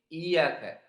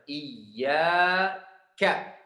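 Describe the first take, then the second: First: The y sound is short and single. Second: The y sound is doubled and held. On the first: The speaker calls it wrong. "ada yang kurang tasydid" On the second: The speaker calls it right. "Harus kita tasydid dan habis tasydid ada mad"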